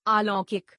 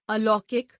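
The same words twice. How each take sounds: First: अलौकिक with a long "aa" at the start; mispronounced. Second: Said in the usual way. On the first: Shown as a demonstration. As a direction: open अलौकिक wrongly as "aa-laukik". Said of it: "अशुद्ध". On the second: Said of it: "शुद्ध".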